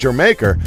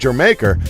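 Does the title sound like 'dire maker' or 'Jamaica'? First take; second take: Jamaica; Jamaica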